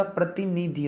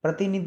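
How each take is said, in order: First: प्रतिनिधि said slowly with its final i; full "dhi" ending. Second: प्रतिनिधि said "pratinidh", final i dropped; clipped final vowel. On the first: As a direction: draw out प्रतिनिधि to the last "dhi". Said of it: "होगा". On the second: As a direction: cut प्रतिनिधि off at the dh. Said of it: "नहीं होता". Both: Shown as a demonstration.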